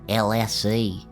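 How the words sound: The last letter is said as 'zee'. "to appease my American audience, I decided to give in and pronounce it"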